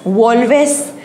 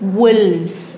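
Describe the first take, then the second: First: Two syllables, with an o vowel first. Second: One syllable, ending in a plain vz sound. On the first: The speaker calls it wrong. "असं नाही आहे" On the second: The speaker calls it right. "अनेक वचन वुल्फचं काय होतं वुल्व्स"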